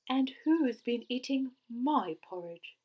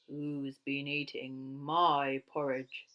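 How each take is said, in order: First: It is said in a cross voice. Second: It is said in a big, gruff voice.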